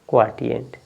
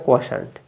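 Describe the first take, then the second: First: The middle consonant is a t sound. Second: The middle consonant is an sh sound. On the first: The speaker calls it wrong. "ये आपका गलत हो जाएगा" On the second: The speaker calls it right. "इसको क्या पढ़ेंगे? क्वा क्वाशंट"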